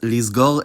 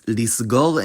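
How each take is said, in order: First: The fricative after 'li' is a voiced z. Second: The fricative after 'li' is a voiceless s. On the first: "the fricative changed its voicing to match the plosive after it" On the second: "At least that's how they've been pronounced"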